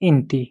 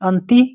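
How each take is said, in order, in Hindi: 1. शब्द की शुरुआत 'i' स्वर से होती है। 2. शब्द की शुरुआत 'a' स्वर से होती है। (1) "इंती भी बोलते हैं" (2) "इंती भी बोलते हैं और अंती भी बोलते हैं"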